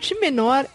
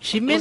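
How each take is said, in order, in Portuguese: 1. As duas palavras são ditas separadamente. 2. As palavras são ditas juntas, com som de i.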